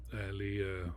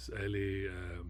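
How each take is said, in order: Both takes have the same delivery.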